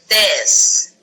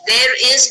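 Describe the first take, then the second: First: It is run together into one syllable. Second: It is said as two separate full words. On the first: "There is becomes theirs" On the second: "There is becomes theirs"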